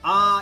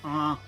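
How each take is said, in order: First: The vowel is plain, not nasal. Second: The vowel is nasal and resonant. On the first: The speaker calls it wrong. "instead of saying ah" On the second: The speaker calls it right. "you say ah, and you like nasally ah"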